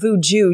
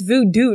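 First: The second syllable sounds like "jew". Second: The second syllable sounds like "doo". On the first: The speaker calls it wrong. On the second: The speaker calls it right. "It's voodoo"

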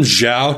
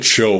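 First: The name starts with a z-like sound. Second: The name starts with a ch sound. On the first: The speaker calls it right. "Zed and like CH are not even similar sounding" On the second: The speaker calls it wrong. "he calls him Admiral Cho"

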